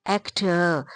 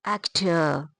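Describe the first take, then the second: Both takes have the same delivery.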